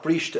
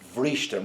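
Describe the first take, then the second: First: The word begins with a b sound. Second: The word begins with a v sound. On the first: The speaker calls it wrong. "not brishte again" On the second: The speaker calls it right. "it's B H, vrishte"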